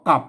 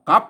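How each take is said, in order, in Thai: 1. คำว่า กลับ ออกเสียงเป็นเสียงเอก 2. คำว่า กลับ ออกเสียงเป็นเสียงจัตวา (1) "ภาษาไทยเพิ่นออกว่ากลับนะครับเป็นเสียงเสียงเอก" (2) "เสียงจระวานะครับ"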